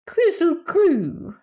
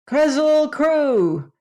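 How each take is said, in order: First: Very high, loud, slow cat voice; a cat yowling the word to anger the Woozy; glass cat's call. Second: A high, loud, slow call. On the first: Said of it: "And the glass cat said". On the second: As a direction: call it out to make the Woozy angry. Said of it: "Scraps called out". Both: A narrator's reading.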